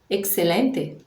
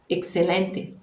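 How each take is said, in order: No difference in how they are said.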